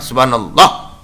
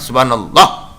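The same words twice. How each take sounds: First: The word is rushed and sounds are dropped. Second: The same.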